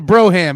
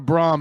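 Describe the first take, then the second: First: The word is said with two syllables. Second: The word is said with one syllable. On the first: The speaker calls it right. "it's a Broham" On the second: The speaker calls it wrong. "It's not a Brom"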